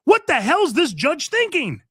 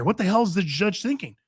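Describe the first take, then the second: First: Host repeating it to listeners, now in open exasperation; exasperated outburst. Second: Said in the usual way. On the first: Real, not acted. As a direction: throw the question up in disbelief. Repeats question, second time raised.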